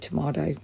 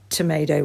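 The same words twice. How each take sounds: First: The middle vowel is like in 'father'. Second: The middle vowel is like in 'may'. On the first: "we say tomato" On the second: "So you say tomato"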